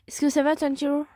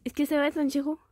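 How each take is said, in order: First: French with an accidental English-accented roll of the tongue; lightly English-accented French question. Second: Said in the usual way. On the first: Real, not acted. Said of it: "j'ai pris l'accent anglais en mode j'ai roulé". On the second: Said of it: "Pourquoi j'ai pris l'accent anglais".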